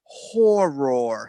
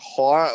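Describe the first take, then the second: First: It is said with a neutral accent. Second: It is said with a Boston accent. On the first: Everybody can understand it. "I'm trying to horror so everybody understands" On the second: It sounds almost like another word. "for a Bostoner horror"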